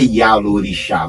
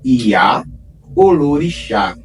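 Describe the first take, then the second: First: The o before lorixá is dropped. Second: The o before lorixá is kept. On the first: This is the shortened form. The speaker calls it wrong. "não é Iá Lorixá" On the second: This is the full original form. The speaker calls it right. "o nome é Iá Olorixá"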